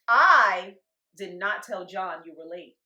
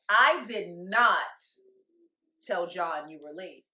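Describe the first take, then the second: First: The stress is on the word I. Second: The stress is on the word not.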